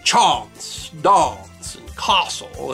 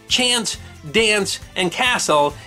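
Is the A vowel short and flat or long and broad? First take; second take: long broad; short flat. First: The A is long and broad, upper-class southern English. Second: The A vowel is short and flat.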